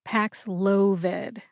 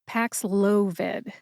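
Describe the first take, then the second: Both takes have the same delivery.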